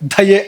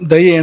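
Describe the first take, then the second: First: The first consonant has a strong breathy puff. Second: The first consonant has no breathy puff. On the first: The speaker calls it wrong. "ದಯೆ ಅಂತಾರೆ ಹೇಳಬಾರ್ದು" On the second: The speaker calls it right. "ದಯೆ ಅಂತ ಅದನ್ನ ಹಾಗೆ ಹೇಳೋಕ್ಕಿರೋವಂಥದ್ದು"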